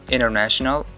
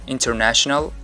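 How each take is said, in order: The two takes are said the same way.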